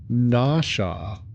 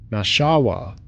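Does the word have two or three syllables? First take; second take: two; three. First: The word is said with two syllables. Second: The word is said with three syllables. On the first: The speaker calls it wrong. "Podcast guy kept saying Nasha" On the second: The speaker calls it right. "I know how to pronounce it"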